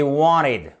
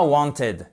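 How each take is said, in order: First: "wanted" as WAH-nid, t dropped; correct American WANTED. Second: "wanted" with a full French t-ed ending; wrong spelled-out WANTED. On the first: Teacher modelling American English, "wanted" as WAH-nid. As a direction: drop the t in "wanted", stress first syllable. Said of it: "c'est wanted". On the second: Teacher showing the mistake, "wanted" read as spelled. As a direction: pronounce the t and ed of "wanted" fully. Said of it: "c'est pas wanted". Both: Shown as a demonstration.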